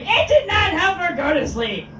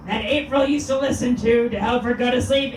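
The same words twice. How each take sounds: First: "did" punched high and loud; "It did not" with "did" stressed, a loud high peak. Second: Said in the usual way. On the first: Shown as a demonstration. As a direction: hit "did" hard, higher and louder.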